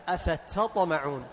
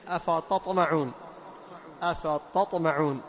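First: أفتطمعون with a proper thin ta; light whispered ta. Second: أفتطمعون slowly with ta turned heavy like ṭa; أفتطمعون with an emphatic ta error; ta made emphatic. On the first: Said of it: "همس التاء مع استفالها". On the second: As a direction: thicken the ta of أفتطمعون into ṭa. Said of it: "صيرها إيش؟ طان". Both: Shown as a demonstration.

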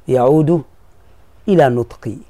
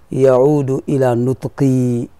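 No difference in how they are said.

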